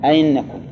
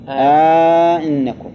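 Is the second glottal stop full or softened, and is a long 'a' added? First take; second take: softened short; softened long. First: The second glottal stop is softened, with no long vowel. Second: A long 'a' is added and the second stop is softened. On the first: "تسهيل الثانية ... سهلة، تخليها بين الياء والهمزة" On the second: "وعلى التسهيل ... سهل"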